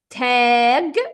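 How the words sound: It is said with an Egyptian hard g.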